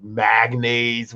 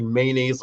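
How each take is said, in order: First: "magnaise" said slowly with a hard G, mag-naise; mispronounced mayo. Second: Said in the usual way. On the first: Retold or imitated. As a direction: stretch out "magnaise", G sound in the middle. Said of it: "magnaise with a G". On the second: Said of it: "she used to pronounce".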